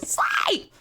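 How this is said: The voice cracks in an obnoxious way.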